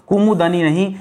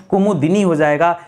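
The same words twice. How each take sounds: First: कुमुदनी said as kumudanī, with a short a before नी; कुमुदनी with the short a: kumudnee; wrong form shown. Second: कुमुदिनी said as kumudinī, with a clear short i before नी; correct form shown. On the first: Teacher naming the misspelling students make, rising. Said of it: "कुमुदनी नहीं होता दोस्तों". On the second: Teacher stating the correct spelling clearly. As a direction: stress the i in कुमुदिनी: kumu-DI-nee. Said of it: "दिनी हो जाएगा दोस्तों". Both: Shown as a demonstration.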